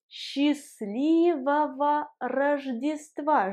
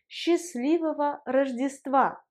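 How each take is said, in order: First: The phrase is said slowly and carefully. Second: The phrase is said quickly, like everyday speech.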